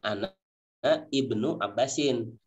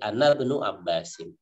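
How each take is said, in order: First: The opening vowel of ibnu is pronounced separately. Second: The opening vowel of ibnu is dropped and linked. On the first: This is the underlying form of the word. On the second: The word sits in the middle of a sentence. "alifnya tidak dibaca jadi ana benu Abbasin"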